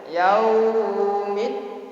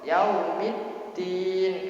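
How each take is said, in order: First: The vowel is drawn out long and wavering. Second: The vowel is held briefly and evenly. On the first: The speaker calls it wrong. "tidak boleh. kalau mengalun mengalun terlalu panjang" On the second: The speaker calls it right.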